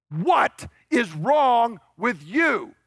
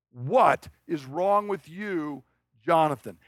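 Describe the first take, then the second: First: What is wrong with you said high, loud and very slow, every word hammered; furious shout. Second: What is wrong with you dropped to normal pitch, very slow, falling in disgust; weary scorn. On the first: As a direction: bellow What is wrong with you at the disappointing son, slowly. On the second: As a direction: drag out What is wrong with you like a father giving up on his son. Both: Retold or imitated. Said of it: "But what he is saying is".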